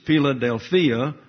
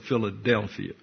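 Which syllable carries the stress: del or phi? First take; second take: phi; del. First: The stress falls on the second-to-last syllable, phi. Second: The stress falls on the third-to-last syllable, del. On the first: This is the Greek word. "In the Greek, it's Philadelphia, but they that's emphasizing the penult" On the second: This is the name of the city. "they put the emphasis on the antepenult, which is the D-E-L. They call it Philadelphia"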